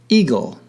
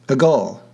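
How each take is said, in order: First: The stress is on the first syllable. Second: The stress is on the second syllable. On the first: The speaker calls it right. "the stress is on the first syllable" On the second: The speaker calls it wrong. "Otherwise, eagle would be pronounced"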